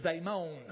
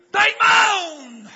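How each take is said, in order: First: Said in the usual way. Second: High, very loud drawn-out cry; preacher's shout. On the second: Real, not acted. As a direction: belt it out, stretching the last word. Preacher shouts the key phrase.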